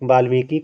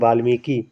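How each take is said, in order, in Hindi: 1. अंतिम स्वर दीर्घ है। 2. अंतिम स्वर दीर्घ है।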